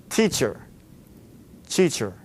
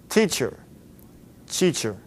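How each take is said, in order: Both takes have the same delivery.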